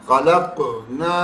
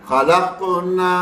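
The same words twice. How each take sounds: Both takes have the same delivery.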